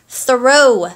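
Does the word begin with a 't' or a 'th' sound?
th. It begins with a th sound. The speaker calls it right. "I almost said throw"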